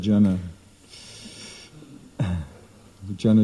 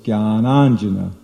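First: It begins with a plain 'j', repeated as jana. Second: It begins with a 'gy' sound, jnana plus anjana. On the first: It means people, people. The speaker calls it wrong. "It's not jana jana" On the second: It means the ointment of knowledge. The speaker calls it right. "so it's jnananjana"

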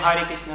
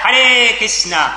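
First: It is said flatly, without feeling. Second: It is said with strong, joyful feeling. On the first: The chanter feels nothing toward God. The speaker calls it wrong. "Если мы равнодушно говорим" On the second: The chanter addresses God with love. The speaker calls it right. "стоит нам поднять руки вверх и сказать"

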